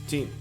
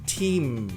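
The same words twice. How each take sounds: First: The final M sound is left out. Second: The final M is said with pressed lips. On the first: The speaker calls it wrong. "tem gente que aí nem pronuncia o M" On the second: The speaker calls it right. "Tem que pressionar"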